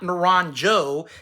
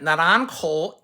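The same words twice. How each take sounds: First: The name is pronounced the English way. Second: The name is pronounced the Spanish way. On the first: The speaker calls it wrong. "not Naranjo that people like to mispronounce" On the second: The speaker calls it right.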